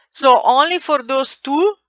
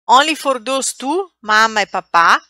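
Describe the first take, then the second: First: High rising so only for those two; stressing those two. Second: Only lifted high with a rising tune; stressing those two. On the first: Teacher stresses which words take both forms. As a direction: lift the phrase up to mark it. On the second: Teacher repeats the rule for students. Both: Shown as a demonstration.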